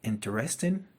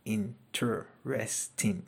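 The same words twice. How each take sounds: First: Said in the usual way. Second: Interesting drawn out slowly, syllable by syllable; teacher modelling interesting slowly. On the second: Shown as a demonstration. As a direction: stretch interesting so every syllable counts. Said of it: "They're more than two syllables".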